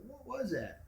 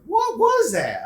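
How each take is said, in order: First: "What was that" softer, to yourself; to myself. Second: Slow, loud, high "What was that"; said aloud. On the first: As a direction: murmur "What was that" in your head. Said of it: "I was thinking to myself". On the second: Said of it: "I said". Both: Retold or imitated.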